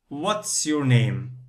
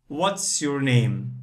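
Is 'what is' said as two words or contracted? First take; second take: contracted; contracted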